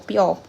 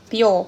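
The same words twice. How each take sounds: First: The word ends without the final 'r' sound. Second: The word ends with a pronounced 'r' sound.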